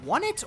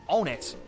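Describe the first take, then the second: First: The name begins with a w sound. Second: The name begins with a plain vowel sound. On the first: "I've always pronounced it Won It" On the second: "I have heard people say Own It as well"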